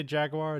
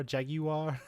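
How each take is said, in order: First: Said in the usual way. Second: JAGUAR in three syllables, "JAG-yoo-ar"; mock-British jaguar with a "yoo" in it; British pronunciation. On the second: Shown as a demonstration. Asking how Brits say it, JAGUAR as "JAG-you-ar". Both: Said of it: "how do they say jaguar?".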